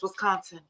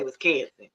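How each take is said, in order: First: Said in the usual way. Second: Wisconsin said as "Wis-CAN-sin"; local pronunciation. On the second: Shown as a demonstration. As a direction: flatten the middle of Wisconsin to "can". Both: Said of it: "We say Wisconsin".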